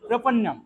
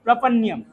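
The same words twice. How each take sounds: First: প্রপন্নম with a plain double n and no y-glide; correct pronunciation. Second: প্রপন্যম with a y-glide after the double n, the wrong way; wrong pronunciation. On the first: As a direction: say প্রপন্নম cleanly as prapannam. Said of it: "না, প্রপন্নম". (শুদ্ধ উচ্চারণে প্রপন্নম, য-ফলা ছাড়া দ্বিত্ব ন) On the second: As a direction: say প্রপন্যম as prapanyam, showing the mistake. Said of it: "প্রপন্যম হবে না". (ভুল উচ্চারণে প্রপন্যম, ন-এর পরে য-ফলার ধ্বনি) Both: Shown as a demonstration.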